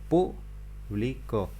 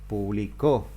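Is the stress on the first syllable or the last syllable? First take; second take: first; last. First: The stress is on the first syllable. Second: The stress is on the last syllable.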